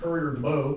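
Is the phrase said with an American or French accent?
American. The phrase is said with an American accent.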